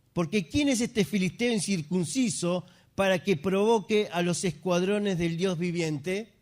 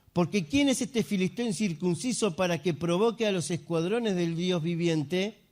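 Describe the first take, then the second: Both takes have the same delivery.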